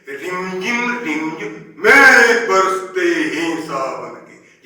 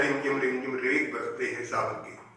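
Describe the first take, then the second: First: It is recited with rises, falls and pauses. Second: It is recited flatly, without rise and fall.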